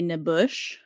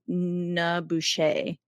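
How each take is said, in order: First: The name ends on a consonant sound. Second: The name ends on an added vowel sound. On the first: The speaker calls it wrong. "I was gonna say Nabush" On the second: The speaker calls it right. "It said it had an A at the end"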